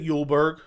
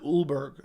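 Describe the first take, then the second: First: The name begins with a 'y' sound. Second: The name begins with a plain vowel. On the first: The speaker calls it wrong. "I didn't say Yulberg" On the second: The speaker calls it right. "that's how you pronounce it"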